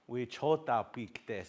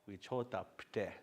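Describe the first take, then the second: First: The last word is said in full, two syllables. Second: The last word is clipped to one short syllable. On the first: "the long version first" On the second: "that's just a shortened version"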